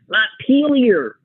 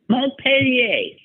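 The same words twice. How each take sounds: First: The name is pronounced with an American-style sound. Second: The name is pronounced with a French-style sound. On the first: This is how it was learned in school. The speaker calls it right. "like a good American pronunciation" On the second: This is how the news anchor said it. The speaker calls it wrong. "she said"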